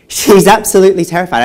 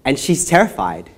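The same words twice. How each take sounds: First: Loud, high burst on "absolutely terrified"; emphatic outburst. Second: Said in the usual way. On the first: Acted. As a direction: hit "absolutely" hard, much louder and higher. Emphatic escalation of the girl's terror.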